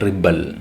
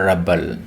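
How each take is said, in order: First: The stress is on the second syllable. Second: The stress is on the first syllable. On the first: It names the act of resisting or rising up. "when we used it as a verb, we pronounce it as rebel" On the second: It names a person who resists or rebels. "when we used this word as a noun or an adjective, we pronounced it as rebel"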